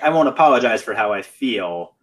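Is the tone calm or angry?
calm. It is said in a calm, plain tone.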